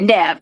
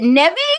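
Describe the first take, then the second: First: The name is said with one syllable. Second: The name is said with two syllables. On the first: The speaker calls it right. "it's just one" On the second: The speaker calls it wrong. "That's how I was pronouncing it"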